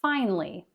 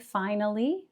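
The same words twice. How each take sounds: First: The word is said with two syllables. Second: The word is said with three syllables. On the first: "many native speakers end up saying this with two" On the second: "You could say finally, three syllables"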